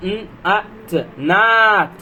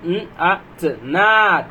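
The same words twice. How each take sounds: The two takes are said the same way.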